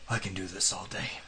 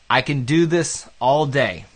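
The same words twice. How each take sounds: First: It is said in a put-on character voice. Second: It is said in the speaker's own plain voice.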